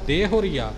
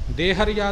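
First: A u vowel is heard after the h. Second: No u vowel is heard after the h. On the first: The speaker calls it right. "ਦੇਹੁਰੀਆ ਪਾਠ ਕਰਨਾ ਹੈ ਜੀ" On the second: The speaker calls it wrong. "ਦੇਹਰੀਆ ਨਹੀਂ ਕਰਨਾ, ਭਾਵ ਹਾਹੇ ਦੇ ਔਂਕੜ ਨੂੰ ਆਪਾਂ ਅੱਖੋਂ ਪਰੋਖੇ ਨਹੀਂ ਕਰਨਾ"

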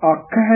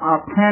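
First: The final vowel is oral, without nasalization. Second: The final vowel is nasalized. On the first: The speaker calls it right. "ਇਸ ਕਰਕੇ ਅੱਖ ਹੈ ਹੀ ਉਚਾਰਨ ਕਰਨਾ" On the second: The speaker calls it wrong. "ਅੱਖ ਹੈ ਨੀ ਕਹਿਣਾ ਹੈ, ਬਿੰਦੀ ਲਾ ਕੇ"

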